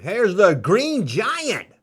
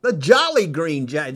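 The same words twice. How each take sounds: First: Said in the usual way. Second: Jolly drawn out and lifted at the start; stress on Jolly. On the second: Real, not acted. Correcting himself to the viewers, Jolly stressed. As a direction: lean on the word Jolly. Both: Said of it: "Didn't say Jolly".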